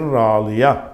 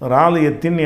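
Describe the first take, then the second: First: The word ends on an open vowel. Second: The word ends with a -tin syllable. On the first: The speaker calls it right. "நிப்பாட்டினா ராலியா" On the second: The speaker calls it wrong. "ராலியத்தின் என்று சொல்லாமல்"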